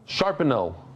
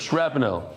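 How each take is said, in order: First: It is said with an extra vowel: sharp-en-el. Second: It is said with no extra vowel: shrap-nel. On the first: The speaker calls it wrong. "I said sharpenel" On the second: The speaker calls it right. "instead of shrapnel"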